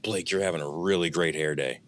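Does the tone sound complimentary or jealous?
jealous. The tone sounds resentful and jealous. The speaker envies the hair. "like that tone is of jealousy"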